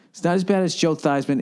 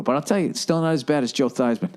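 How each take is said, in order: First: "bad" raised and leaned on; emphatic "bad", pitch up; stress on bad. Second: Said in the usual way. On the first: Shown as a demonstration. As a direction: hit "bad" harder in the repeat.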